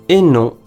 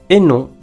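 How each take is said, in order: The two takes are said the same way.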